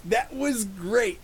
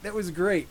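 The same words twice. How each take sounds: First: That was great, stretched slow, a bit higher; drawn-out praise. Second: Said in the usual way. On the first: Shown as a demonstration. Vlogger savoring the scene, slow drawn-out That was great.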